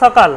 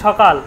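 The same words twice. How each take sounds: First: It begins with a dental 's' sound. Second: It begins with a palatal 'sh' sound. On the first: The speaker calls it right. "দাঁতে উচ্চারণ করতে হয়" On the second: The speaker calls it wrong. "সকাল বলে তো সঠিক নয়"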